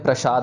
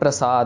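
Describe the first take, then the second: First: The middle consonant is a 'sh' sound. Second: The middle consonant is a plain 's' sound. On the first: The speaker calls it wrong. "फिर वो प्रसाद बन जाता है। तो इधर हमने प्रसाद नहीं कहना" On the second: The speaker calls it right. "सस्सा प्लेन, श नहीं है ये"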